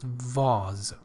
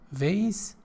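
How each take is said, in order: First: The word is said in a British accent. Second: The word is said in an American accent. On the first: "according to British pronunciation, it is called, it is pronounced vase" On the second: "the, let's say, uh, American pronunciation"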